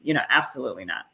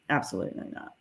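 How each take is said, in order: First: Said in the usual way. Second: Breathed out low and soft, nearly voiceless; muttered afterthought under the breath; whispered repeat. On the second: Real, not acted. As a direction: drop to a near-whisper for the echo. Emphatic denial repeated under breath.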